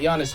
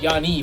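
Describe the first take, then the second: First: The name ends with an s sound. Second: The name ends without an s sound. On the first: The speaker calls it wrong. "or actually not Giannis" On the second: The speaker calls it right. "you do not pronounce the S"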